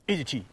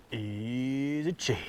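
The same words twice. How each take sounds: First: Said in the usual way. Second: Drawn out slow, much softer and hushed; slow soft showcase. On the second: Shown as a demonstration. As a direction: savour it like a fancy product name.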